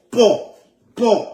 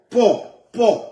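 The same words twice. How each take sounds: The two takes are said the same way.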